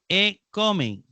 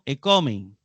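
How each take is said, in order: First: The first word is said apart from the next. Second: The first word runs straight into the next. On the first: The speaker calls it wrong. "No se dice en plural" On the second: The speaker calls it right. "sino; Es parte de la palabra"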